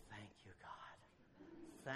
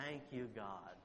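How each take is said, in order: First: Whispered prayer. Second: Said in the usual way. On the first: Acted. Silent prayer of relief in heart.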